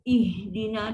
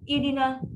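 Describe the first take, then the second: First: The h sound is soft with continuing breath. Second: The h sound is abrupt without flowing breath. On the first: The speaker calls it right. "bunyi dia sangat lembut" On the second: The speaker calls it wrong. "memang sangat salah"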